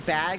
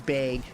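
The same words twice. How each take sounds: First: It is said in a standard American accent. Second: It is said in a Minnesotan accent. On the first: "Instead of saying bag" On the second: "she says bag"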